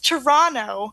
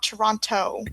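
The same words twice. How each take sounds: First: The t after the n is dropped. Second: The t after the n is clearly pronounced. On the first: The speaker calls it right. "I don't pronounce the T in Toronto" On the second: The speaker calls it wrong. "you don't pronounce it. It's not Toronto"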